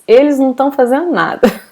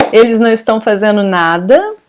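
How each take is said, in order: First: "tão" for estão, first syllable dropped; fast spoken Portuguese with clipped "tão"; colloquial reduced form. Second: "estão" said in full with its "is" onset; careful written form of "estão"; formal full form. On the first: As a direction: run "não tão" together quickly, as in casual speech. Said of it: "We would say like this". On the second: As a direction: keep both syllables of "estão", is-tão, as in writing. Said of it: "Writing in a more formal way, we would put is". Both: Shown as a demonstration.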